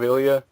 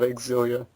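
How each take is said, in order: First: The X at the start is silent. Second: The X at the start is pronounced. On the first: The speaker calls it wrong. "I thought it was pronounced Tales of Ilia ... a silent X" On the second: The speaker calls it right. "But now it's official. It's called Tales of Exilia"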